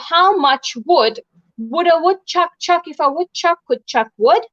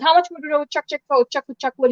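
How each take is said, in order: First: It is said at an ordinary, careful speed. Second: It is said very quickly, run together.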